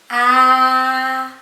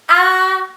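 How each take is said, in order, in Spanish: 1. La vocal se pronuncia con tono medio. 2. La vocal se pronuncia con tono alto. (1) "Tono medio" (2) "El tono alto"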